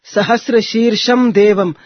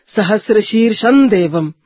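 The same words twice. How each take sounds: Both takes have the same delivery.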